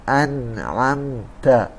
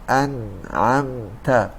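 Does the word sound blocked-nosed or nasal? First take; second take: blocked; blocked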